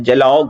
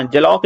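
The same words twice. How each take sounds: First: जलौघ ending in a voiced, aspirated gh; correct final sound. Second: जलौक ending in a plain unaspirated k; mistaken final sound. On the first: Teacher corrects the word for students, जलौघ with a clear final gh. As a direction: stretch जलौघ slowly and land on the gh. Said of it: "जलौघ होता है". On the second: Teacher shows students the mistaken word, जलौक ending in k. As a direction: say जलौक with a hard k at the end, no breath. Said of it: "जलौक नहीं होता है". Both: Shown as a demonstration.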